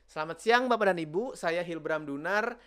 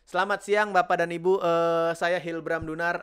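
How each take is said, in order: First: The pauses are silent and very long. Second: The pauses are filled with 'eh' sounds. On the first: The speaker seems unprepared and panicked. "Nah itu kelamaan" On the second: The speaker sounds panicked and unprepared. "Banyak kan A-nya. Karena panik lah"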